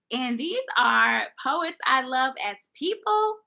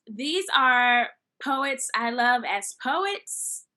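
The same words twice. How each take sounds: First: "people" lifted high and loud; stress on PEOPLE. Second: Drawn-out "poets", last one lifted in pitch; stress on second POETS. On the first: Host sorting poets she loves, stressing "as people". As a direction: answer the contrast, hitting "as people". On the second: Host sorting poets she loves, stressing "as poets". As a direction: slowly set up the contrast, landing on "as poets". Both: Real, not acted.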